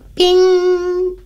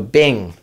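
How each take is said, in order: First: It is said very high, like a bell. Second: It is said in a normal pitch.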